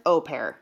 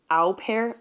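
First: "Au" said as a long "oh"; "Au pair" starting with a plain O sound; pronounced with O. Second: "au" said like "ow" in cow; "au pair" starting with an "ow" vowel; uncertain pronunciation. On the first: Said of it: "Like an O". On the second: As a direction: say "au pair" as "ow pair", questioning. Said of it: "I can never figure out how to say it". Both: Shown as a demonstration.

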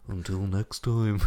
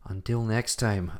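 First: Until next time slowly drawn out, fighting off laughter; dramatic sign-off, laughing. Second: Until next time, slow and drawn out like a host; dramatic sign-off. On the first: Signing off the podcast with a laughing, slow theatrical until next time. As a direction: stretch the farewell through a giggle. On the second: Signing off the podcast, a slow theatrical until next time. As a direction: stretch the farewell theatrically. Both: Pretend. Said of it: "I'm not gonna do it like this".

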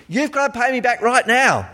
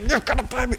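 First: High demanding creditor voice; angry creditor. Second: High, hushed grabbing voice; lightly voiced creditor choking his debtor; angry creditor. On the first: Retold or imitated. Creditor throttling debtor, high demanding voice. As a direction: press him for the money. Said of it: "you're like". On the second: Creditor grabs debtor's neck, hushed high demand. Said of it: "and he's like".

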